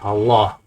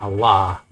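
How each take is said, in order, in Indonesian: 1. Vokal utamanya berbunyi 'o'. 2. Vokal utamanya berbunyi 'a'. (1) "di Jawa ini orang bilangnya Allah gitu, pakai O gitu" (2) "di kampung saya di Gayo pakai A"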